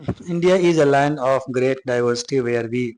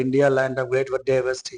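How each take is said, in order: First: India is a land of great diversity read slowly and a bit louder; emphatic read. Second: Said in the usual way. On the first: Shown as a demonstration. Teacher tells students to listen carefully, then reads louder and slow. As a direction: lean on India so the class listens closely. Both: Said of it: "ध्यान से सुनिएगा".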